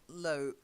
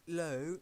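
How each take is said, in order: First: The vowel sounds like the one in 'low'. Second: The vowel sounds like the one in 'low'.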